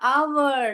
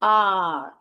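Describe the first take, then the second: First: It is said with a w sound, two syllables. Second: It is said as one syllable, no w sound. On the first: The speaker calls it wrong. "आवर नहीं पढ़" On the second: The speaker calls it right. "आर ऐसे पढ़ने का"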